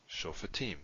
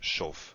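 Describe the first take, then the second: First: It has three syllables, with a vowel after f. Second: It has two syllables, with no vowel after f. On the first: The speaker calls it right. "if it follows a long vowel, it's vocal. So this is vocal, so we pronounce it" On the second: The speaker calls it wrong. "We would not say shoftim. We would not make the silent"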